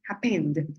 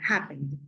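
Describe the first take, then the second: First: The stress is on the last syllable. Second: The stress is on the first syllable. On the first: The speaker calls it wrong. "Yo no digo happened" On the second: The speaker calls it right. "La primera sílaba es la que va a llevar el acento"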